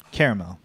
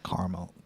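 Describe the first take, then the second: First: "caramel" in three syllables, CARE-uh-mel. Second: "caramel" in two syllables, CAR-mel. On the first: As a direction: give "caramel" an "air" first vowel and a middle syllable. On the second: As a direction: try "caramel" with an "ah" first vowel. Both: Shown as a demonstration. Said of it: "I say caramel".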